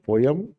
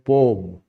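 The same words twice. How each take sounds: First: It sounds like 'po-em', as spelled P-O-E-M. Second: It sounds like 'pome', as spelled P-O-A-M. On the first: "poem, P O E M, poem" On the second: "P O O, P O A M, poem"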